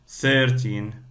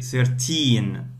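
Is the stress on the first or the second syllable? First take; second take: first; second. First: The stress falls on the first syllable. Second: The stress falls on the second syllable. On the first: The speaker calls it wrong. "You don't say, for example, 13" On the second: The speaker calls it right. "So you say 13"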